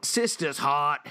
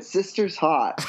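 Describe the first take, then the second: First: Put-on slow, drawn-out Boston accent on sister's hot; a bar regular leering about Murph's sister. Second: Put-on slow Boston accent with a laugh. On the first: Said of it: "our best Boston accented". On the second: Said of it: "That's really good".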